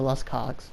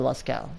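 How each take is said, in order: First: The name ends with a hard 'ogs' sound. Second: The name ends with an open 'oh' sound. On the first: The speaker calls it wrong. "It's not pronounced the Las Cogs" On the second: The speaker calls it right. "it's pronounced the Lascaux"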